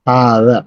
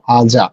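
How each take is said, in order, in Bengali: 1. মাঝের ব্যঞ্জনধ্বনিটি সাধারণ d ধ্বনি। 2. মাঝের ব্যঞ্জনধ্বনিটি j ধ্বনি। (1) "আমরা এই জিনিসটাকে হাদা বলতে অভ্যস্ত" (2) "বাংলাদেশের প্রেক্ষাপটে আমরা হাজা বলতে চাই"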